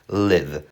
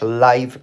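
First: The vowel is a short i sound. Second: The vowel is not a short i sound. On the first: It means to reside or be alive. "mieszkać i żyć czytasz live" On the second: It means broadcast in real time. "słowo na żywo czytasz live"

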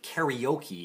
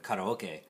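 First: The word has an Americanized English pronunciation. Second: The word has a Japanese pronunciation. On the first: "Americanized in a weird way" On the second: "a perfectly Japanese pronunciation"

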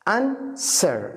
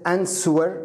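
First: The w sound is silent in the word. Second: A w sound is pronounced in the word. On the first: The speaker calls it right. "الدبليو لا ينطق هنا" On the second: The speaker calls it wrong. "ليست answer"

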